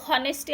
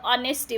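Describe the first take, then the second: First: The word begins with an h sound. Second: The word begins directly with a vowel. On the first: The speaker calls it wrong. "हॉनेस्टी असं नाही होणार" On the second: The speaker calls it right. "त्याचं ऑनेस्टी म्हणायचं"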